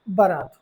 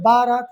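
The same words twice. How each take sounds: First: The first vowel is short. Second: The first vowel is long. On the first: The speaker calls it right. "देखिए इसमें कोई मात्रा नहीं लगा हुआ है, बारात होगा" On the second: The speaker calls it wrong. "इसलिए बारात नहीं होगा"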